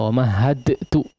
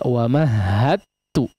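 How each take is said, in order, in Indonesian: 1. Huruf d dilepas dengan memantul sebelum t. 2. Huruf d menyatu langsung ke t yang bertasydid. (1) "apalagi kemudian malah di qalqalahkan" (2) "langsung masuk kepada huruf ta"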